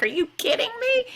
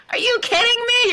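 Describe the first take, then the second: First: High, breathless whispered disbelief; incredulous whisper. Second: High, louder cry of disbelief; incredulous outburst. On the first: Retelling her reaction to the lockdown, a high whisper. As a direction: hiss it out in shocked disbelief, all breath. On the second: Retelling her reaction to the lockdown, a high loud outburst. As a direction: blurt it out, fed up and amazed. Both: Retold or imitated.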